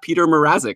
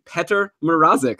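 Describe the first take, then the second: First: The first name starts with a long 'pee' sound. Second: The first name starts with a short 'peh' sound. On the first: The speaker calls it wrong. "not Peter Mrazek, as I think I've been saying all uh, season long" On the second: The speaker calls it right. "my finally pronouncing this goalie's name correctly"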